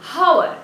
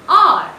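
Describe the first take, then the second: First: The word begins with an audible h sound. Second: The word begins with a vowel, no h. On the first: The speaker calls it wrong. "Since the word starts with H, I don't pronounce it hour" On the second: The speaker calls it right. "I say R. It means the first letter is silent"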